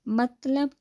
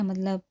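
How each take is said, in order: First: Mild puzzled rise on "مطلب؟", a bit higher; puzzled question. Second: Said in the usual way. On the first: Acted. Boss asking assistant, confused: "مطلب؟" rising. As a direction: ask "مطلب؟" confused, voice lifting. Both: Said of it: "Noman نے الجھ کر پوچھا".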